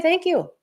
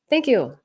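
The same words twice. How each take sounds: First: Lifted, sing-song polite thank you; airily dismissive thanks, voice up high; polite brush-off. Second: Said in the usual way. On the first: Retold or imitated. To someone being rude, a mock-gracious high thank you.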